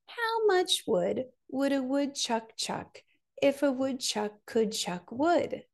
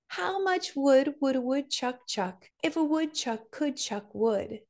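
First: It is said at a slower pace. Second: It is said at the fastest pace.

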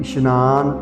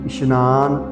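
First: The middle consonant is an 'sh' sound. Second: The same.

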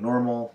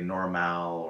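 First: The last syllable is a reduced, plain L sound. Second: The last syllable has a full, spelled-out vowel. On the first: The speaker calls it right. "instead of saying normal" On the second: The speaker calls it wrong. "they might say normal"

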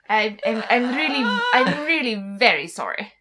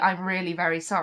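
First: It is said in a very posh upper-class accent. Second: It is said in a standard, less posh accent. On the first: "this is the very posh" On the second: "whereas my RP would be"

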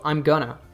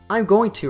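First: 'Going to' is reduced to 'gonna'. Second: Every word is fully pronounced, with no reduction. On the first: "I'm going to reduces to I'm gonna" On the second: "I'm going to reduces to I'm gonna"

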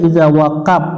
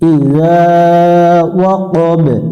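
First: The final consonant ends as a clipped p. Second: The final b is released with an echo. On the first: The speaker calls it wrong. "এটা অনেকজনে পড়ে ইজা ওয়া কাপ, ওয়াকাপ পড়া যাবে না" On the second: The speaker calls it right. "একটু প্রতিধ্বনি সৃষ্টি করতে হবে, অর্থাৎ কলকলা করতে হবে"

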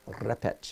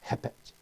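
First: The word begins with an R sound. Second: The word begins with an H sound. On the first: The speaker calls it wrong. "instead of repech" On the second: The speaker calls it right. "An initial R in Portuguese is pronounced like the letter H in English"

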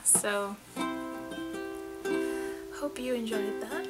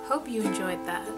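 First: It is said very quietly. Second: It is said more loudly.

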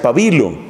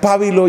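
First: The stress is on the second syllable. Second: The stress is on the first syllable. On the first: This is how the speaker's country says it. "en otros países, como el mío, se pronuncia pabilo" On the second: This is how some countries say it. "en unos países se pronuncia pábilo"

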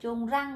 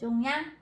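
First: The second syllable starts with an R sound. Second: The second syllable starts with an N sound. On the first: The speaker calls it wrong. "tại sao cô không đọc là chung răng" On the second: The speaker calls it right. "mà cô đọc là chung nhăn"

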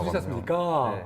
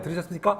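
First: The final syllable is stretched out with a melody. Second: The final syllable is short and plain. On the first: The agent sounds friendly and kind. The speaker calls it right. "까를 이렇게 약간 멜로딕하게 늘리는 게 굉장히 중요하거든요" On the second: The agent does not sound friendly. The speaker calls it wrong. "그냥 들으셨습니까? 그러면 안 되고"

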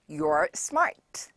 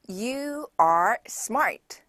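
First: You and are are joined into one contracted syllable. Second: You and are are said as two separate words.

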